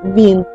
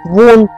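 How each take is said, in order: First: The word is said with an i vowel. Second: The word is said with an o vowel. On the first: This is how people speak now. "А тепер" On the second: This is the old village way of speaking. "як говорили"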